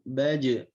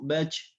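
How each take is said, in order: First: The final j is firm and strongly pressed. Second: The final j is weak, breaking like ch. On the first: The speaker calls it right. "Jangan sampai pengucapannya lemah" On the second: The speaker calls it wrong. "kebanyakan orang membacanya dengan ... seperti c"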